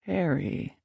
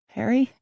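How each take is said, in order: First: Softly repeated name, falling at the end; musing repeat. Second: A touch of sadness in a higher, rising question; saddened. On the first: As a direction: turn the name over quietly, letting it fall. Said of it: "he repeated". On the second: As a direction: say the name as an unsure, let-down question. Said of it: "he could hear the sadness in my voice". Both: Acted.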